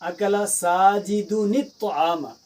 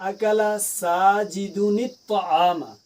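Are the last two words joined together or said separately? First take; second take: joined; joined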